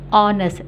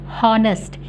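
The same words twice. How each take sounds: First: The word starts with a vowel, H silent. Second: The word starts with an audible H sound. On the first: The speaker calls it right. "Kita bunyikan honest" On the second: The speaker calls it wrong. "Tapi kita tidak boleh bunyikan honest"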